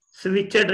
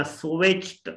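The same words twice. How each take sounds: First: स्विच्ड quickly with extra syllable, "switch-ed"; two-syllable स्विच्ड with a final D; wrong ED ending. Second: स्विच्ड closing on a T sound. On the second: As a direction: say स्विच्ड with no vowel before the final T. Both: Shown as a demonstration. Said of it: "स्विच्ड नहीं बोलना".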